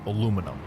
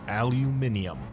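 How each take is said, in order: First: The word is said the American way. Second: The word is said the British way.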